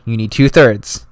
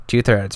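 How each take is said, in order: First: Two-thirds drawn out, slow and weighty; stress on two-thirds. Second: Said in the usual way. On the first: Shown as a demonstration. Explaining the nomination rule to viewers, slow stress on two-thirds. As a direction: lean on two-thirds slowly to drive it home.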